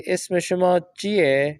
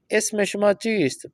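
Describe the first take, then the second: First: "چیئے" said as chie, dropping the final st, slow; spoken Persian form. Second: "چیست" said in full as cheest with the final st kept, slow; careful bookish "اسم شما چیست" with every sound; written Persian form. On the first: Teacher shows students the spoken form, slow colloquial chie. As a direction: colloquial "اسم شما چیئے" with the st swallowed. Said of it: "جب ہم گفتگو کریں گے". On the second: Teacher shows students the written form, slow full pronunciation. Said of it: "فارسی نوشتاری، لکھائی میں". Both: Shown as a demonstration.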